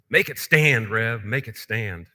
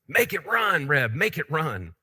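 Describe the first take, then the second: First: It is said a little louder and bolder. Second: It is said loudly, almost shouting.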